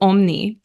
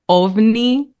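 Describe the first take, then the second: First: The middle consonant is an m sound. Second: The middle consonant is a v sound. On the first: The speaker calls it wrong. "I thought it was omni" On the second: The speaker calls it right. "recently I realized that the word ovni"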